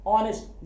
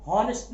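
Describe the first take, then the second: First: ऑनेस्ट with no h, straight on the vowel; ऑनेस्ट said as "on-est"; correct pronunciation demo. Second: हॉनेस्ट with the h sounded; हॉनेस्ट begun as "hon"; wrong pronunciation demo. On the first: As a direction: open ऑनेस्ट on "o", h silent. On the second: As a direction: voice the silent h: हॉनेस्ट. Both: Shown as a demonstration. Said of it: "हॉनेस्ट नहीं".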